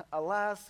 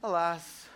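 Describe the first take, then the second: First: "Alas" lightly voiced, a touch theatrical; mock Old English. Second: "Alas" in a put-on antique stage voice; Old English lament. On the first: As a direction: say "Alas" like an old stage line. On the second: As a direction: sigh "Alas" like a tragic old player. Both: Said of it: "if you're in Old English times".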